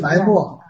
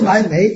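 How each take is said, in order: First: The character is read with the vowel of mò. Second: The character is read with the vowel of méi. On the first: The speaker calls it right. "是埋墨" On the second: The speaker calls it wrong. "不是埋眉"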